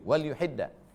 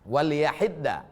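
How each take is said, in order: First: The vowel after the 'y' is 'u'. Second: The vowel after the 'y' is 'a'. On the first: "bidhammil ya" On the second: "Wa bi fathiha"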